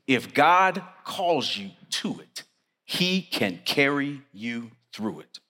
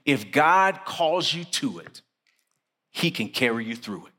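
First: Slow, spaced out, pausing between words; slow emphatic repeat. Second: Said in the usual way. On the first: Shown as a demonstration. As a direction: let each word of "he can carry you through it" land separately.

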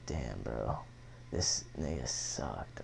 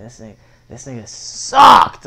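First: Low, soft, slow muttered dismay; quiet, slow disbelief. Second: Louder, drawn-out outrage at the tattoo; louder, slow verdict. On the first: Teen staring in the mirror at his face tattoo, quiet dismay. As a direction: let it sink in, low and quiet. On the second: Teen repeats his complaint about the tattoo artist, louder and slow. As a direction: hammer the complaint, slowly. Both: Retold or imitated.

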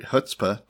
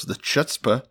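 First: "chutzpah" starting with an H sound; corrected chutzpah. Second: "chutzpah" with CH as in church; mispronounced chutzpah. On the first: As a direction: say "chutzpah" as "hootspa". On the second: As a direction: say "chutzpah" starting with an English CH. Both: Real, not acted. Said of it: "uh, whatever, chutzpah".

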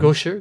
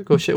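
First: Gaucher said as GOH-sher, questioning; tentative pronunciation. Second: Gaucher said as goh-SHAY; French-style pronunciation. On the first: Host testing the name with co-host, Gaucher as GOH-sher. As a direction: say Gaucher with "oh", "sh" and an "er" ending. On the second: Host testing the name with co-host, Gaucher as French goh-SHAY. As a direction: say Gaucher with "sh" and an "ay" ending. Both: Shown as a demonstration. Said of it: "gauche should be French, right".

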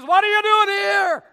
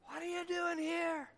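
First: Loud, high, demanding; God's question shouted at the congregation. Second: Hushed, much softer repeat; God's question repeated softly to each listener; quiet question. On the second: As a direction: drop to an intimate near-whisper. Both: Acted. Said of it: "God's question to you this morning is".

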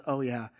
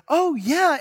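First: Lower, softer, defeated oh yeah; deflated yes. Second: Higher, louder, thrilled yes; eager yes. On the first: Boy remembering his forced promise to sister, deflated. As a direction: let the air go out of him. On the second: Boy eagerly accepting grandpa's fishing trip, excited. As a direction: jump at the offer like a happy kid. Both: Retold or imitated. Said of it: "He goes".

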